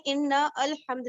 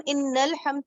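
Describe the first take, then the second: First: ان الحمد separated as "inna al-hamd"; unjoined reading. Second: ان الحمد linked as "innal-hamd"; joined reading. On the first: Teacher showing class what not to read, ان الحمد split as "inna al-hamd". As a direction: say ان الحمد as two words, with a fresh 'a' starting الحمد. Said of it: "نہیں پڑھ رہے ہیں". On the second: Teacher showing class the correct reading, ان الحمد joined as "innal-hamd". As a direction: run ان straight into الحمد, dropping the alif's vowel. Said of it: "لیکن ہم ان الحمد پڑھیں". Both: Shown as a demonstration.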